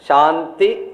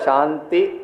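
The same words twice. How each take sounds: First: The word is said loudly. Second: The word is said softly. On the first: Obstacles should not come from the divine. "கொஞ்சம் பெருசா ஆரம்பிப்போம்" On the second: Obstacles should not come from those around us. "கொஞ்சம் மெதுவா"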